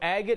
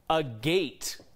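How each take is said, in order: First: It is said as one fused word. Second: It is said as two separate words. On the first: "agate is the preferred pronunciation" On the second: "there is an argument to be made for a gate"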